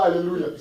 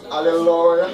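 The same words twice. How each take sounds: First: Said in the usual way. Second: Imitating a hoarse, drawn-out loud hallelujah; broken voice. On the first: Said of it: "Ils ne disent pas Alléluia". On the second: Preacher showing how evangelists say hallelujah, loud broken voice. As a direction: bellow it like a worn-out prayer leader. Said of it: "ils ont des voix cassées".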